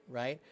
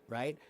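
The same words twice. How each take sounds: No difference in how they are said.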